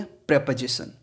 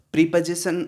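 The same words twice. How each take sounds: First: प्रीपोजिशन said prep-uh-zi-shun with short e; the right way, प्रीपोजिशन with a short prep; correct pronunciation, prep-o-zi-shun. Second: प्रीपोजिशन said as pree-po-zi-shun, long pree; the common wrong way, प्रीपोजिशन with a long ee; wrong pronunciation, pree-position. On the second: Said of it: "प्रीपोजिशन नहीं है". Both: Shown as a demonstration.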